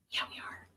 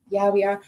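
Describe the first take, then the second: First: Soft unvoiced whisper. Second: Said in the usual way. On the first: Real, not acted. Answering herself about using the massager, whispered. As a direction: breathe the answer conspiratorially.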